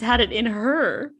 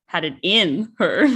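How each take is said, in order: First: "had it in her" with the weight on "her"; stress on her. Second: "Had it in her" with the weight on "in"; wrong stress. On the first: Correcting the friend's reading, stress on "her". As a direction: land hard on "her". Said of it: "the point is her". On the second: Showing her friend the wrong reading, stress on "in". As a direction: lean on "in", laughing. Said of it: "you don't say". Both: Shown as a demonstration.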